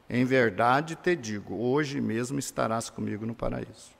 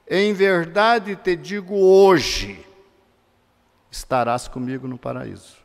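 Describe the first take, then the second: First: The pause comes before the word hoje. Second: The pause comes after the word hoje. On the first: The arrival in paradise happens today. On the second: The statement is made today, not the arrival.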